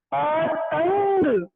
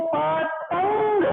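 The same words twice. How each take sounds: First: पतंग stretched very slowly, nasal held before ग; पतंग syllable by syllable, drawn out; very slow demo. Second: Slow, spelled-out पतंग; पतंग said slowly, nasal after त; slow teaching demo. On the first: (बहुत धीमा, खींचकर उच्चारण) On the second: (धीमा, समझाने वाला उच्चारण) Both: Shown as a demonstration. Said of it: "इसका उच्चारण इसके बाद किया जाए".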